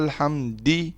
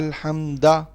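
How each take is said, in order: First: The word ends with an i vowel. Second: The word ends with an a vowel. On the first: "अब ये गलत है" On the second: "अब ये गलत है"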